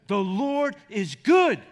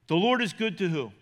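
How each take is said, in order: First: Very slow, louder, leaning on good; slow emphatic answer. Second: Said in the usual way. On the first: Shown as a demonstration. Pastor answering his own question, slow and emphatic. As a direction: drag out every word and land on good.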